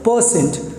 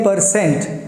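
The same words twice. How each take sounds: First: The r sound is left silent. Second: The r sound is clearly pronounced. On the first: The speaker calls it right. "इसमें से आर को silent कर देते हैं" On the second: The speaker calls it wrong. "अगर आप इसे बोलते हैं परसेंट"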